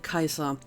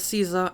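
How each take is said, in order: First: The name begins with a k sound. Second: The name begins with an s sound. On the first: This is the Latin way, used by the Legion. "people in the Legion say Kaiser" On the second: This is the common way most people say it. "Pretty much everyone else says Caesar"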